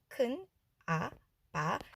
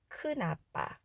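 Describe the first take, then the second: First: The syllables are read separately, one by one. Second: The n carries over into the next syllable. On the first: "한 글자 한 글자 읽었을 때" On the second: "여기 니은이 뒤로 넘어가니까 크나빠 이렇게 연음으로 소리가 나겠죠"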